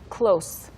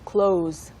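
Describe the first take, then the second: First: The word ends with a hissing s sound. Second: The word ends with a buzzing z sound. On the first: It means near. "다시 한번 가까운" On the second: It means to shut. "그리고 닫다. / 마지막 발음이 z죠"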